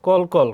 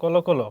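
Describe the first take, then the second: First: কল কল as clipped "kol kol", ending on l; slow spelling-style "kol, kol" for কল কল; written-form reading. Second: কল কল as "kolo kolo", a rounded o after each l; teacher's model of কল কল as "kolo-kolo"; added final vowel. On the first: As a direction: say কল কল with no vowel after each l. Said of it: "অ এর উচ্চারণ কি হয়". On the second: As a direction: open each কল into two syllables, "ko-lo". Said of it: "উকার". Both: Shown as a demonstration.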